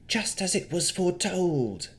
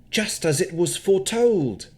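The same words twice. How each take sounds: First: Navara's light try at a spooky seer, higher; a hint of Madame Eva's foretelling tone. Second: A lightly spooky fortune-teller line, higher. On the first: Navara copying the fortune-teller, lightly spooky. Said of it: "attempted to sound like Madame Eva". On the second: Acted. Gostomir showing Navara, a touch spooky. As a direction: intone it like a hint of a seer. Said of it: "Say it in a spooky way".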